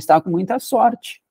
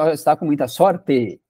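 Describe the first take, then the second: First: The last vowel of sorte sounds like ee. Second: The last vowel of sorte sounds like eh. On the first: This is how people say it day to day. "o sonzinho que sai aqui no final é o sonzinho de i" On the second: Almost nobody says it this way. "É muito raro alguém falar isso"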